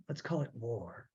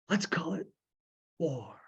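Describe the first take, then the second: First: Low and hushed, dead serious; low grim quote. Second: Said in the usual way. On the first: Shown as a demonstration. Host repeats the closing line, low and hushed. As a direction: drop it low and quiet like a verdict. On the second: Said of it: "And he says".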